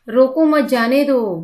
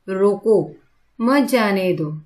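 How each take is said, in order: First: It is said without any pause inside. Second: There is a pause after 'mat'. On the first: It is unclear whether to stop or let go. "अभी इस वाक्य में रुकना है या जाना है ये हमें नहीं समझ में आ रहा है।" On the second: Do not stop the one leaving; let them go. "इस वाक्य में जो जा रहा है उसे रोको मत जाने दो।"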